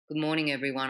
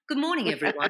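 First: It is said flatly, with no key words punched. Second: It is said lively, with key words punched out. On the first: The speaker calls it wrong. "So it's not" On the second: The speaker calls it right. "highlighting key words with your voice"

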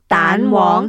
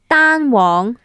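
First: The first syllable carries the second tone. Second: The first syllable carries the first tone. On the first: It means egg yolk. "Second tone is egg" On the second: It means a single yolk. "first tone"

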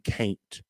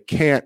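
First: The vowel is drawn out with a y-glide. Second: The vowel is plain, with no added glide. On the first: The speaker calls it right. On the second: The speaker calls it wrong.

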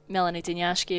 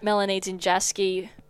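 First: The surname is pronounced in its native way. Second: The surname is pronounced in an anglicized way. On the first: The speaker calls it right. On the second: The speaker calls it wrong.

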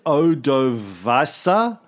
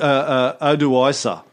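First: The name is said with a v sound. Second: The name is said without a v sound. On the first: "there's sometimes a V in it" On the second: "I think Odoisa is how it's actually pronounced usually"

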